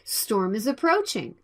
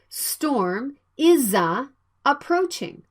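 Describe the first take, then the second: First: The words run together as one word. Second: The words are said separately with breaks. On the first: The speaker calls it right. "Please speak them as one word" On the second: The speaker calls it wrong.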